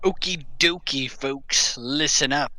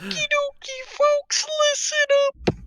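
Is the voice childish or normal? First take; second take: normal; childish. First: It is said in a normal voice. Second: It is said in a childish voice.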